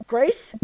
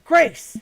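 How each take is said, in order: First: Said in the usual way. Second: Louder, higher, insistent call of Grace. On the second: Acted. Daughter calling her friend Grace, louder and insistent. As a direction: shout Grace to get her attention.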